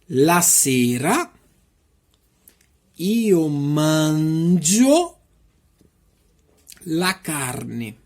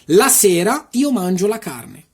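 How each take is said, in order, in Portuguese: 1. A frase é falada em ritmo lento. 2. A frase é falada em ritmo rápido. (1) "e depois devagarzinho" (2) "eu vou falar rápido"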